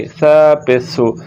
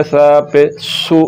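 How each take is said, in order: First: Tongue tip out, no hiss in सा पेसु; tha without whistle. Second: सा पे सु ending on a whistled s; wrong, seen for tha. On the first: Teacher modelling the letter, unwhistled th sound. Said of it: "सीटी की आवाज़ नहीं निकलेगी". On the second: Teacher showing pupils the mistake, whistling s. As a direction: make the final सु a sharp seen. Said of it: "ये अब सीन की आवाज़ है". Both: Shown as a demonstration.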